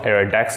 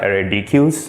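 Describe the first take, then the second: First: Deque is said like the word deck. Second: Deque is said as two letters, dee-cue. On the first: The speaker calls it right. "these things are called ArrayDex" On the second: The speaker calls it wrong. "not ArrayDQs"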